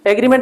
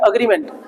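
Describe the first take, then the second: First: The word begins with an 'eh' vowel. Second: The word begins with an 'uh' vowel. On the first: The speaker calls it wrong. "एग्रीमेंट नहीं" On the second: The speaker calls it right.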